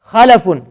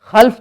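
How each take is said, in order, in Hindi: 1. L के बाद छोटा 'a' स्वर है। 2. L के बाद कोई स्वर नहीं है। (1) "लाम के जज़म सुकून के साथ नहीं बल्कि फतहा के साथ" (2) "लाम को जज़म दे देते हैं, सुकून दे देते हैं"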